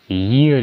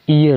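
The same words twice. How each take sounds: First: ईयर with a clear y glide before the "ee"; correct pronunciation. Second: ईयर begun on a bare "ee" vowel, no opening y; wrong pronunciation. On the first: Teacher modelling it for learners, ईयर pronounced "yee-ar". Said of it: "इस तरीके से ईयर इसका उच्चारण होता है". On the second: Teacher warning learners of a common error, mispronounced ईयर as "ee-yar". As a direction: say ईयर as "ee-yar", starting straight on "ee". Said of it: "इसका गलत उच्चारण है". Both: Shown as a demonstration.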